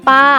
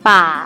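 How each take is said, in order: First: The syllable is said in the tho tone. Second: The syllable is said in the ek tone. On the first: "ปาไม้โท" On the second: "ปาไม้เอก"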